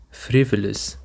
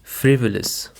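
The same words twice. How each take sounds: First: FRIvolous, first syllable stressed. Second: FRIvolous, clear first-syllable stress. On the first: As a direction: lean on the FRI of "Frivolous". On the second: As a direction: say "Frivolous" with weight on FRI. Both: Shown as a demonstration. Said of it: "The stress is on the first syllable".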